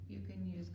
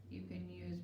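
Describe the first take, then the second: No difference in how they are said.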